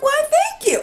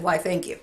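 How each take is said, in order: First: High, airy mock-polite thank you; prim thank you. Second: Said in the usual way. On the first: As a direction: play it dainty and high. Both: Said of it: "I literally said".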